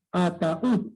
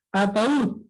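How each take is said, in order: First: "ataúd" broken up as a, ta, úd; three separate beats in "ataúd"; split into syllables. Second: Said in the usual way. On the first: Shown as a demonstration. ("ataúd" silabeado: a, ta, úd) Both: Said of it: "Ahí está".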